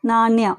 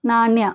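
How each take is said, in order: No difference in how they are said.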